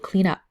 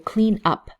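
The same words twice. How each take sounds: First: The two words join smoothly like one word. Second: The two words are said with a break between. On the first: The speaker calls it right. "the N and the U uh, connect together" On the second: The speaker calls it wrong. "So we don't say"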